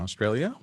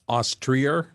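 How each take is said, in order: First: The word has a plain, ordinary pronunciation. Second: The word has an imitated, unusual pronunciation.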